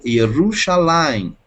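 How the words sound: The R is a soft, light Portuguese R. This is how it is said in Brazil. "em português, aqui no Brasil, eu diria Yerushalayim"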